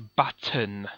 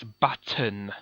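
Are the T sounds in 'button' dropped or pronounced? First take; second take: pronounced; pronounced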